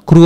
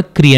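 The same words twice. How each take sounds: First: క్రూ with an oo vowel; Telugu kru reading. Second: క్రీ with an ee vowel; Hindi kri reading. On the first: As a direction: say క్రూ as "kroo". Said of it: "క్రూ అని కాకుండా". (క్రూ ఉకారంతో పలకండి) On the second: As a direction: say క్రీ as "kree". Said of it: "క్రీ అని use చేస్తాం". (క్రీ ఇకారంతో పలకండి) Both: Shown as a demonstration.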